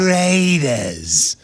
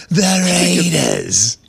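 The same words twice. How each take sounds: First: Slow, eerie drawn-out announcer call; horror movie voice. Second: Slow, drawn-out announcer call; Berman impression. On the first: Retold or imitated. Correcting the co-host's Berman, slow and spooky. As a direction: drag it out like a horror trailer. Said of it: "why did you say it like a horror movie". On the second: Showing how Berman really says it, slow and drawn. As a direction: stretch it like a broadcaster. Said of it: "He goes".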